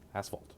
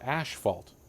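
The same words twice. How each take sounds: First: The first syllable sounds like ass. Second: The first syllable sounds like ash. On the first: The speaker calls it right. "That's how it's pronounced" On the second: The speaker calls it wrong. "it is not ash"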